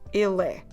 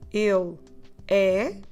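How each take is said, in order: First: The two words run together as one. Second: The two words are said separately. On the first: "let's try to run the words ele and the word é together" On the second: "instead of saying ele é"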